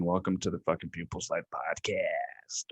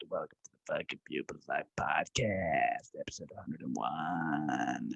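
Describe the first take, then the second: First: Low breathless whisper intro; hushed podcast welcome. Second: Low soft whisper, dropping further; deep hushed welcome. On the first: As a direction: whisper it like a secret. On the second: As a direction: whisper the welcome and episode number. Whispered intro again. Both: Acted.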